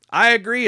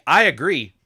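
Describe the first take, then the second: First: I agree, much higher and louder; emphatic agreement. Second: Said in the usual way. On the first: Real, not acted. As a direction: repeat "I agree" with a lifted, insistent I.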